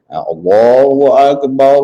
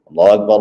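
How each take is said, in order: First: The words are drawn out slowly. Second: The words are said quickly and short. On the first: It is the call to prayer. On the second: It is the call to stand for prayer. "Mana ada panjang"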